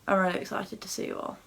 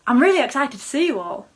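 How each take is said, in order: First: It sounds flat and unconvincing. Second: It sounds genuinely excited with rising inflection.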